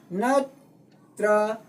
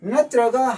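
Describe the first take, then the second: First: ꯅꯠꯇ꯭ꯔꯒ slowly split into three separate syllables. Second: Said in the usual way. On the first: Shown as a demonstration. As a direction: stretch ꯅꯠꯇ꯭ꯔꯒ into three beats with pauses between. (ꯅꯠꯇ꯭ꯔꯒ ꯈꯣꯟꯊꯣꯛ ꯈꯨꯗꯤꯡ ꯇꯣꯉꯥꯟꯅ ꯇꯞꯅ ꯍꯥꯏꯕ) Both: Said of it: "syllable ꯑꯃꯅꯤ".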